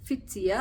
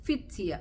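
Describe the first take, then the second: No difference in how they are said.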